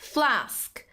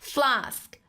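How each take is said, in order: Both takes have the same delivery.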